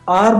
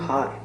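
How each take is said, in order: First: The word starts with a vowel, no h. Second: The word starts with an audible h sound. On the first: The speaker calls it right. "आर बोलेंगे उसको तो एन use होगा" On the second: The speaker calls it wrong. "अगर आप इसको कहोगे हार"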